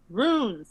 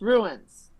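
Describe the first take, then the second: First: The word does not sound like 'ruins'. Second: The word sounds like 'ruins'. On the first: The speaker calls it right. "Runes is not pronounced ruins" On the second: The speaker calls it wrong. "not pronounced ruins, ever"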